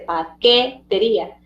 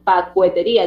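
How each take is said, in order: First: No w sound is heard after the k. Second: A w sound is heard after the k. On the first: The speaker calls it right. "dice paquetería" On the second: The speaker calls it wrong. "Ahí no dice pacuetería"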